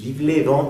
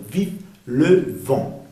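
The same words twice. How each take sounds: First: "vive le vent" with "le" as "lé"; wrong le vowel. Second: "vive le vent" slow, "le" rounded as "leu"; careful "vive le vent" with French "eu" in "le"; correct le vowel. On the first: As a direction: run "vive le vent" together with a Spanish E in "le". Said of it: "No es vive le vent". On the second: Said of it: "sino vive le vent". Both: Shown as a demonstration.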